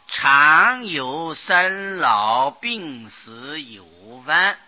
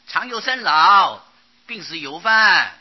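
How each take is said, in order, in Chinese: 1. 这个短语要连着读，中间不停顿。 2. 这个短语读到四个字后要停一下。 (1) "这个地方读的时候要连起来" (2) "你不要念成"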